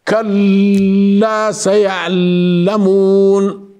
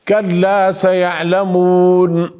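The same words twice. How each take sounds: First: The words drag and stick, halting on letters. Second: The words flow smoothly without halting. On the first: The speaker calls it wrong. "ليس هكذا أحبابي" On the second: The speaker calls it right. "كلا سيعلمون هكذا"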